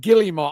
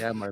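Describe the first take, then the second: First: The name is said without an R sound. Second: The name is said with an R sound. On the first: "every time he says fucking Guillemot" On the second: "it's fucking Guillermo"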